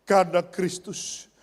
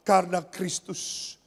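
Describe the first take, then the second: No difference in how they are said.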